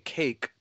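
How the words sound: It is one syllable with an English accent. The listeners do not understand it. "I can say the exact same word in an English pronunciation"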